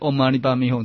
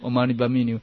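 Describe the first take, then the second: First: The final syllable is pronounced like hong. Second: The final syllable is pronounced like niu. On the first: The speaker calls it right. "那可是唵嘛呢叭咪吽" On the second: The speaker calls it wrong. "这个念错了"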